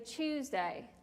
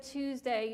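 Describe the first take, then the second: First: The word starts with a CH sound. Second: The word starts with a plain T sound. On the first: The speaker calls it right. "you say Tuesday, like with a C H" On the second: The speaker calls it wrong. "you don't say Tuesday"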